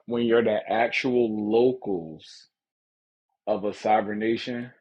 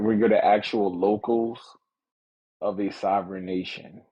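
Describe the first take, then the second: First: It is said slowly and deliberately. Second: It is said at a quicker pace.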